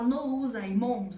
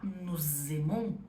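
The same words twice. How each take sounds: First: The words are separate with no Z link. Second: A Z sound links the two words. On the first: The speaker calls it wrong. "Em vez de eu falar" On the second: The speaker calls it right. "Eu ligo uma palavra na outra"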